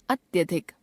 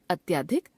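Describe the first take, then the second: First: Said in the usual way. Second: अत्याधिक with long आ after ty; wrong pronunciation. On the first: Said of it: "शुद्ध". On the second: Shown as a demonstration. Teacher showing a common error, अत्याधिक with long middle आ. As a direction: stretch the middle vowel of अत्याधिक to "atyaadhik". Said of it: "अशुद्ध".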